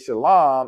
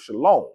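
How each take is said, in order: First: The last syllable has an open 'ah' vowel. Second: The last syllable has a rounded 'oh' vowel. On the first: It follows the older way of saying the word. "you hear me say" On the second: It follows the modern way of saying the word. "instead of"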